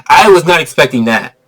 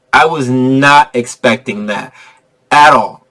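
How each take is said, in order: First: Said in the usual way. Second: Slow emphasis. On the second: Real, not acted. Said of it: "slower repeat".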